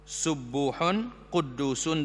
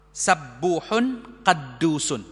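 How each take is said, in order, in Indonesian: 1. Suku kata pertama dibaca dengan vokal 'u'. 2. Suku kata pertama dibaca dengan vokal 'a'. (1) "boleh dibaca dengan harakat dhammah" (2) "boleh juga dibaca dengan fathah"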